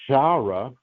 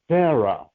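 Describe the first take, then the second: First: The name begins with a sh sound. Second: The name begins with an s sound. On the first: The speaker calls it wrong. "she's not pronounced Shara with the S H" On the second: The speaker calls it right. "which is just a Sarah"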